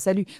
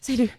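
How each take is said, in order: First: It is said plainly, with no breath. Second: It is said with an audible, breathy push. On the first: The character is standing still. The speaker calls it wrong. "ça marche pas si tu fais juste euh" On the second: The character is running. The speaker calls it right. "il y a un souffle"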